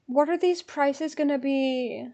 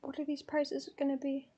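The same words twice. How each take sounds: First: Slow, stretched-out question; drawn-out worry. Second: Very soft, under the breath; hushed worry. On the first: Fan fretting over ticket prices, drawn-out worry. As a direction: draw the question out anxiously. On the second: Fan dreading ticket prices, hushed worry. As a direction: fret quietly to yourself. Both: Real, not acted.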